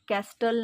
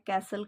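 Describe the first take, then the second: First: The t sound is pronounced in the middle. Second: The t sound is silent in the middle. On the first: The speaker calls it wrong. "याला कॅस्टल नाही म्हणायचं" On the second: The speaker calls it right. "याचा उच्चार कॅसल करायचा आहे"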